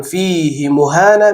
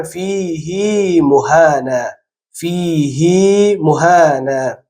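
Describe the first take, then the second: First: «فیه مهانا» with the ه in فیه kept short. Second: «فیه مهانا» very slowly, the ه in فیه drawn long as hee; stretched hi in فیه. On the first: Teacher shows the reading to avoid. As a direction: clip the ه of فیه. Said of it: "به جای اینکه بخوانیم". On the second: Teacher shows the correct exception reading. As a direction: lengthen the ه of فیه. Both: Shown as a demonstration.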